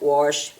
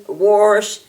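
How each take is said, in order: First: "Wash" said as warsh, with an r before the sh; Appalachian "Wash" with an r slipped in, warsh. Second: "wash." as warsh, r before the sh, a bit louder; child proudly saying "wash." as warsh; southern warsh. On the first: Shown as a demonstration. Teacher showing her own southern "Wash" as warsh. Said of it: "I'll say things like". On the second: Retold or imitated. Child showing mom the southern "wash." as warsh. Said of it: "my mother will love it when I get there and say".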